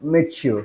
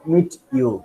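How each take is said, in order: First: The t and y merge into a ch sound. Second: The t and y are pronounced separately. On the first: The speaker calls it right. "Ta and y together makes cha" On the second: The speaker calls it wrong. "not meet you"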